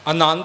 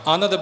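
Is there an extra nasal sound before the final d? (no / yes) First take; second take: yes; no. First: A nasal sound comes before the final d. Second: No nasal sound comes before the final d. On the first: The speaker calls it wrong. "ਆਨੰਦ ਨਹੀਂ ਬੋਲਣਾ" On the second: The speaker calls it right. "ਐੜਾ ਨੰਨਾ ਦੱਦਾ ਆਨੰਦ"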